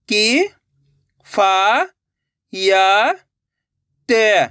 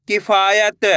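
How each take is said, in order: First: कि, फा, या drawn out and rising, ते falling; syllable by syllable. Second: Said in the usual way. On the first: Shown as a demonstration. Teacher breaking a word for learners, syllable by syllable. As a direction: sound out कि, फा, या, ते singly. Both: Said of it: "एक अक्षर का उच्चारण करके".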